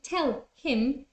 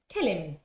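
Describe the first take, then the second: First: The h in him is pronounced. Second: The h in him is dropped.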